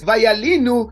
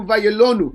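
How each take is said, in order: First: "vayalinu" with an ee sound, va-ya-LEE-nu; "vayalinu", i vowel drawn out; vayalinu as written. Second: "vayalonu" with an oh sound, va-ya-LO-nu; "vayalonu", o vowel clear; vayalonu as read. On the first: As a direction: say "vayalinu" slowly with a clear i in the middle. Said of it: "the word vayalinu sounds like that they are dependent". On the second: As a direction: say "vayalonu" with a rounded o in the middle. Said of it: "it changes to vayalonu". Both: Shown as a demonstration.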